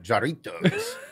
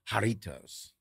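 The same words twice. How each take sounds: First: The name starts with a hard J sound. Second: The name starts with an H sound. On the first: The speaker calls it wrong. "I called it Jarritos" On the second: The speaker calls it right. "The J is silent. It's pronounced with an H"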